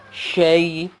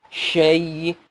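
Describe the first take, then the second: Both takes have the same delivery.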